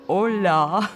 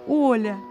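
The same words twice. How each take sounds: First: The stress is on the last syllable. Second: The stress is on the first syllable. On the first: The speaker calls it wrong. "с ударением на последнюю гласную" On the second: The speaker calls it right. "Я постаралась выделить ударением первую гласную"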